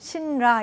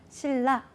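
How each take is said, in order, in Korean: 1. ㄴ 소리와 ㄹ 소리가 둘 다 발음됩니다. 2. ㄴ이 ㄹ로 바뀌어 ㄹ 소리가 두 번 납니다. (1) "니은과 리을을 함께 발음할 수는 없다 ... 신라 이렇게 하실 수 있을 수도 있는데요" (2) "니은과 리을의 연쇄는 리을과 리을로"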